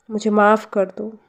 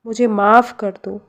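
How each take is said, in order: Both takes have the same delivery.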